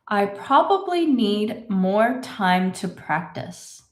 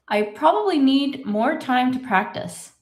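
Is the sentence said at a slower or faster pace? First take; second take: slower; faster. First: It is said at a slower pace. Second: It is said at a faster pace.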